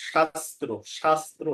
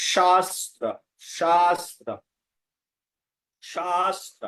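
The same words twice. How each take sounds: First: শাস্ত্র with short first vowel and rounded ending, "shastro"; everyday Bengali pronunciation. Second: শাস্ত্র with long stressed aa, "shaastra"; correct Sanskrit pronunciation. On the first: Teacher shows how we say it, everyday pronunciation. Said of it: "আমরা যখন বলি". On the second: Teacher models for learners, correct Sanskrit pronunciation. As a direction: hold the first vowel of শাস্ত্র, open final a. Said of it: "তখন সঠিক উচ্চারণ আসবে". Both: Shown as a demonstration.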